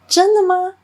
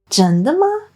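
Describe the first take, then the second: First: The word tones stay intact despite the surprise. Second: Surprised intonation distorts the word tones. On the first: The speaker calls it right. "It should actually be" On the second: The speaker calls it wrong. "they often said"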